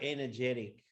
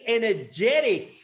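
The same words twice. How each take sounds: First: It is said flatly, with low energy. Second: It is said with lively, high energy.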